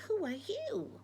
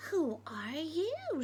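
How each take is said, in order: First: Higher, voiced, bright-toned reply in Betty's voice; Betty asks back, voiced not whispered; higher voiced question. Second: Slow, hushed whisper asking who's there; a wary whispered who are you; Bill whispers his question. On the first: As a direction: toss the question back lightly. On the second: Acted.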